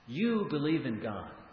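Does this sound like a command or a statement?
command. It is said in a firm, commanding tone. It orders the listener to believe. "Then I'm commanding"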